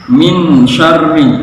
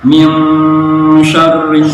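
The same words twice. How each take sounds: First: The n is pronounced clearly. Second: The n is muffled and nasalized. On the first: The speaker calls it wrong. "dibaca jelas" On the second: The speaker calls it right. "harusnya ikhfa samar"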